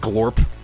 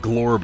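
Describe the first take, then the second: First: The word ends with a voiceless P sound. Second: The word ends with a voiced B sound. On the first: The speaker calls it wrong. "not Glorp" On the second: The speaker calls it right. "It's B. It's Glorb"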